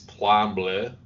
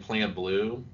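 First: The last word has a French vowel sound. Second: The last word sounds like English blue. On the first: The speaker calls it right. "It's Plan Bleu" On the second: The speaker calls it wrong. "you mispronounced. You keep saying Plan Blue"

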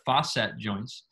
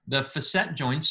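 First: The first syllable sounds like 'foss'. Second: The first syllable sounds like 'fass'. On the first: "sometimes known as the fosset joints"

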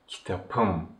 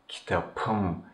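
First: The consonant before the ending is a voiceless p. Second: The consonant before the ending is a voiceless p.

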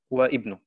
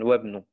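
First: The vowel at the start of ibnu is pronounced. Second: The vowel is dropped, linking into one word. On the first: The speaker calls it wrong. "hier habe ich wieder nicht gesagt" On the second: The speaker calls it right. "sondern wabnu"

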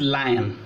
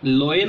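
First: The vowels sound like 'lie-on', 'eye' first. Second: The vowels sound like 'loin', 'oi' first. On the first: The speaker calls it right. "the correct pronunciation is lion" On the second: The speaker calls it wrong. "loin is wrong pronunciation"

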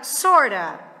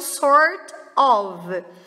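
First: The words merge, ending in a weak schwa. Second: The two words are said fully and separately. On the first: "que também vira sorta" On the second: "Outro jeito de falar isso é o sort of"

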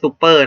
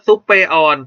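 First: The word ends without sounding the silent letter. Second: An extra final syllable sounds the silent letter. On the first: The speaker calls it right. "รู้ว่าคำนี้อ่านว่าซุปเปอร์นะ" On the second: The speaker calls it wrong. "เราไม่ต้องการอ่านว่าซุปเปอร์ออน"

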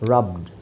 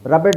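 First: The ending vowel is silent, making one syllable. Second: The ending is a separate syllable with a vowel. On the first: The speaker calls it right. "ಇದನ್ನೇ ನಾವು ಈ ಥರ ಓದೋದು" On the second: The speaker calls it wrong. "ರಬೆಡ್ ರಬೆಡ್ ರಬೆಡ್ ಅಂತ ಬರಬೇಕು ಲೆಕ್ಕದಲ್ಲಿ"

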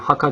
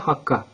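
First: The k sound is short and single. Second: The k sound is held long and doubled. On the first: The speaker calls it wrong. "haka değil" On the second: The speaker calls it right. "sanki şedde var gibi veya 2 tane kaf var gibi okuyoruz"

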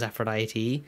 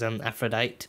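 First: The final E sound is pronounced. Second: The final E sound is left silent. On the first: The speaker calls it right. "And then it was Aphrodite" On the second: The speaker calls it wrong. "I did not say the E. I used to say it as Aphrodite"

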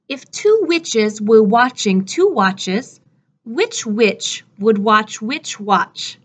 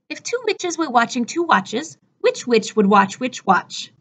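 First: The sentence is said at a moderate pace. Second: The sentence is said at a fast pace.

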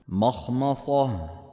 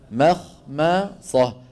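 First: The m sounds are pronounced thick and heavy. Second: The m sounds are pronounced thin and light. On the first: The speaker calls it wrong. "فصارت عند الخطأ تصير هكذا" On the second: The speaker calls it right. "المفروض يقول إيش"

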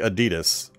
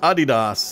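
First: It is said the common American way. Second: It is said the way source-language speakers do. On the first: This is the widespread American version. The speaker calls it wrong. "So many Americans will say Adidas" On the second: This is how people from the source country say it. The speaker calls it right. "Adidas is the correct pronunciation"

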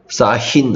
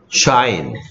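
First: The word begins with a plain s sound. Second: The word begins with a single sh sound. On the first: The speaker calls it wrong. "사인 아닌데요" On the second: The speaker calls it right. "SH는 무슨 소리 돼요? 쉬 되죠"

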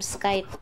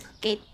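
First: The vowel rhymes with 'bite'. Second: The vowel rhymes with 'gate'. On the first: The speaker calls it wrong. "I like calling them skite" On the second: The speaker calls it right. "I think the correct way to say it is skate"

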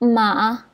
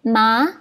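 First: The pitch dips low and rises only slightly. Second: The pitch rises steadily from mid to high. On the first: "Nada ketiga dia ada naik juga. Tapi dia naik sikit je" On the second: "ni nada kedua ... Kan sebab dia menaik"

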